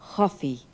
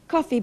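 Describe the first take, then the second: First: The first consonant is a breathy ch sound. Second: The first consonant is a hard k sound.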